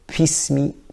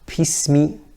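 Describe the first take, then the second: First: The first sound has a puff of air, like P. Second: The same.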